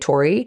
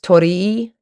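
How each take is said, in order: First: The final 'ee' sound is short and unemphasized. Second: The final 'ee' sound is long and emphasized. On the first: "In English, we just t- tend to say Tori" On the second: "in Japanese, it might be pronounced Torii, so you emphasize that second E"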